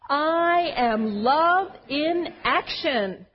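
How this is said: It is said forcefully, with strong conviction.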